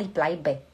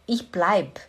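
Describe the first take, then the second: First: The verb ends with a final e sound. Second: The verb ends without the final e sound. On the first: "eu não falo ich bleibe"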